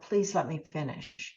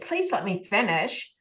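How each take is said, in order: First: It is said calmly and politely. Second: It is said in an irritated, annoyed tone.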